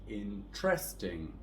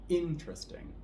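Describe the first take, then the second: First: The stress is on the second syllable. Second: The stress is on the first syllable. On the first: The speaker calls it wrong. "with a stress on the second syllable" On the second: The speaker calls it right. "we're going to stress the first syllable here"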